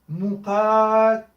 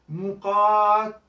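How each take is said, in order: No difference in how they are said.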